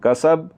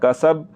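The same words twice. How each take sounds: No difference in how they are said.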